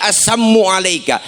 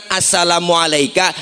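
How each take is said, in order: First: "assammu alaika" with a doubled m and no la syllable; the insulting greeting "assammu alaika", swallowing the la; twisted salam. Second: "assalamu alaika" with the full sa-la-mu syllables; the correct greeting "assalamu alaika", every syllable said; proper salam. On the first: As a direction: say "assammu alaika", held m, dropping the la. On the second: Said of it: "Kalau kita kan". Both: Shown as a demonstration.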